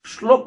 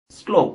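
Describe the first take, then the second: First: শ্লোক said as "shlok"; wrong sh pronunciation. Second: শ্লোক said as "slok"; correct English-S pronunciation. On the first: Teacher demonstrating the error for students, শ্লোক with sh. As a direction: put a sh at the start of শ্লোক. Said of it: "উচ্চারণ হয় না". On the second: Teacher giving students the right form, শ্লোক with English s. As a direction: start শ্লোক on a clean s, not sh. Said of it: "উচ্চারণ হয়". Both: Shown as a demonstration.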